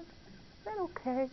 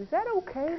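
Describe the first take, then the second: First: Slow, softer timid repeat; hushed plea. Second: Said in the usual way. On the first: Retold or imitated. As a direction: barely ask it again, slowly. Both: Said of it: "He said".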